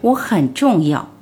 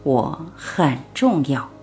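First: It is said loudly, as a declaration. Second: It is said a little louder.

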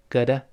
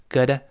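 The two takes are said the same way.

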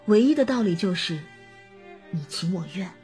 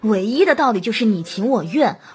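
First: The voice sounds sad and sympathetic. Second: The voice sounds detached and dismissive. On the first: The speaker shares the listener's pain. The speaker calls it right. "这个声音当中透露着心疼和难过" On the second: The speaker is not personally concerned. The speaker calls it wrong. "摆出一副事不关己的样子，比如用这样的情绪说着相同的内容"

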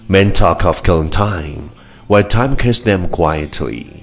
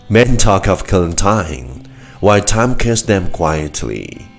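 Both takes have the same delivery.

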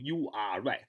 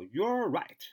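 First: You and are are said as separate words. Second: You and are are linked into one syllable. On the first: The speaker calls it wrong. "不要读you are right 啊，没那么读的" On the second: The speaker calls it right. "要you are 要连读，叫you're right"

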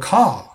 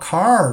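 First: Australian accent without an r at the end. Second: American accent with an r at the end.

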